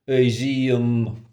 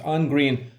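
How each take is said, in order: First: The first word is a short vowel, no n. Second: The first word has a strong, full n sound. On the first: The speaker calls it right. "should be pronounced E in this case" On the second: The speaker calls it wrong. "the overpronounced in"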